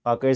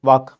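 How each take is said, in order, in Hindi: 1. शब्द के अंत में एक अतिरिक्त 'a' स्वर है। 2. शब्द 'k' ध्वनि पर समाप्त होता है। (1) "Vaka is like Angreja" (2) "Not Angreja, it's Vak"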